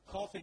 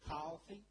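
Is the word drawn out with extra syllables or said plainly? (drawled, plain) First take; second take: plain; drawled. First: It is said plainly in a standard accent. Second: It is drawled in a Southern accent, stretched longer.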